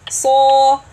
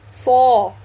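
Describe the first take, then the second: First: The s sound is full, deep and held back. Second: The same.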